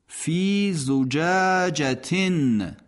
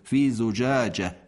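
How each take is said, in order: First: The word ends in a full 'tin' sound. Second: The word ends in a soft 'h' sound. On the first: The reciter continues without stopping. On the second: The reciter stops on this word.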